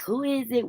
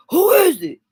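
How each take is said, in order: First: Said in the usual way. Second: Loud, high-pitched tough challenge; toughened-up, booming door challenge; means-business holler. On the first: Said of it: "We'll be like". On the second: Shown as a demonstration. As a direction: holler through the door like you mean business. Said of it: "Let 'em know you mean business".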